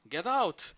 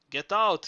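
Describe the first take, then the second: First: A slightly lighter hoarse yell; hoarse shout. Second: Loud, high hoarse yell; hoarse shout. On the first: Zorba warning the workmen again, hoarse shout. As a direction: repeat the warning urgently. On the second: Zorba warning the workmen of collapse, hoarse shout. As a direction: bark the warning as the roof shudders. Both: A narrator's reading. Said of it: "Zorba shouted in a hoarse voice".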